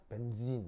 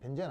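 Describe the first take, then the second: First: The second syllable has an 'ee' vowel. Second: The second syllable has an 'e' vowel. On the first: This follows the English pronunciation. The speaker calls it right. "이 장모음이어서 발음은 벤진" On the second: This is the Japanese-style pronunciation. The speaker calls it wrong. "벤젠은 이제 일본식으로 발음하는 거지. 그래서 이제 벤젠 아니고"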